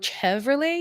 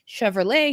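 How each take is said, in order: First: It is read out the way it looks. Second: It is said the usual established way. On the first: Someone sees the word without having heard it. The speaker calls it wrong. "he would just read it like that at first" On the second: Someone has heard how the word is said. The speaker calls it right. "he might pronounce afterwards correctly"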